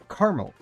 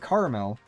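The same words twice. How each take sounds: First: The word is said with two syllables. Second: The word is said with three syllables. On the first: It names the pet. "I say caramel. As in, with one A" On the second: It names the sweet food. "I actually don't say caramel"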